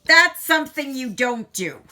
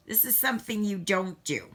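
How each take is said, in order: First: Higher and louder, a rueful scolding warning. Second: Said in the usual way. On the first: Real, not acted. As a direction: call it out as a real warning to viewers. Warning after spilling beads.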